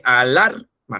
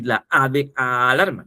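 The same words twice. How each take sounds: First: "alarma" with LAR drawn out and punched; "a-LAR-ma", the middle syllable stretched; stress on second A. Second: "alarma" with a long, slow opening A; first A drawn out. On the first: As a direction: slowly lean on LAR in "alarma". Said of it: "en la segunda A". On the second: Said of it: "la A de la". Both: Shown as a demonstration.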